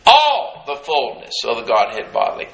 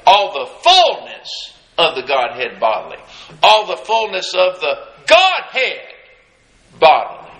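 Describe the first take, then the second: First: "All the fullness of the Godhead bodily" with each word weighted evenly and low; stress on every word. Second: "fullness" leaned on hardest, then "bodily" dropped low and firm; slow word-by-word stress. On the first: Preacher to his church, each word stressed deliberately. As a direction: lean on all, fullness, Godhead and bodily one after another. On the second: Preacher spelling out scripture for his congregation, each word stressed. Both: Shown as a demonstration. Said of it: "put an emphasis on each one of those words".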